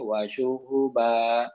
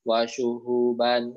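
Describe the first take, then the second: First: The word ends in a long vowel. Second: The word ends with an n sound. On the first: The reading stops at this word. "fathah tanwin yang diberhentikan" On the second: The reading continues into the next word. "Kalau misalnya diwasolkan diwasolkan bacanya"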